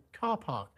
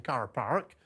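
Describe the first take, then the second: First: "Car Park" with silent Rs, southern English; standard southern English accent. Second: Lancashire "Car Park" with both Rs sounded; Lancashire accent. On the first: Host showing the rival pronunciation, R-less standard English accent. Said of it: "rather than Car Park". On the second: Host urging Britain to copy Lancashire, rhotic Lancashire accent. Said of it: "they should all be saying". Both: Shown as a demonstration.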